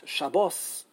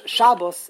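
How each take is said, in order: First: Shabbos as sha-BAWS, end-stressed; weight the second syllable of Shabbos; Hebrew pronunciation. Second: Shabbos as SHA-bus, front-stressed; Yiddish pronunciation. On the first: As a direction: Shabbos with a full "aw" ending. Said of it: "is Hebrew". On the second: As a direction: punch the first syllable of Shabbos. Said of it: "is Yiddish". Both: Shown as a demonstration.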